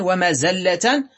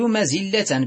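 First: ومزلة as wa-mazalla, a on the zay; fatha form. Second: مزلة as mazilla, i on the zay; kasra form. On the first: Teacher giving the irregular noun, ومزلة said wa-mazalla. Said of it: "بالفتح شذوذا". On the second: Teacher giving the regular noun, مزلة said mazilla. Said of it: "بالكسر قياسا". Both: Shown as a demonstration.

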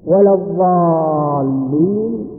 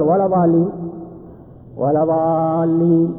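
First: "ولا الضالين" slowly, doubled dad and stretched long vowel; drawn-out recitation. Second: "ولا ضالين" chanted slowly with a plain single dad; drawn-out chant of "ضالين", dad not doubled; no doubling. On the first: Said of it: "مشددة". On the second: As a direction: recite "ضالين" without the shadda. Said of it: "قلنا: أعد الصلاة". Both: Shown as a demonstration.

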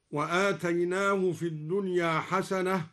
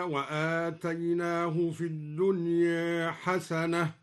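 First: Said in the usual way. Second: Slow recitation, الدنيا with its final alif leaned toward e; taqlil on الدنيا. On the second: Shown as a demonstration. Teacher recites al-Duri's reading, الدنيا ending toward e. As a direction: chant it with الدنيا ending between a and e. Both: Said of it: "قلل الدوري الدنيا هكذا".

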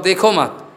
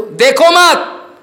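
First: Said in the usual way. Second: High, loud, drawn-out command; shouted prohibition. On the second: Real, not acted. Guru forbidding disciples to look, high drawn-out shout. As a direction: cry it out as a slow warning.

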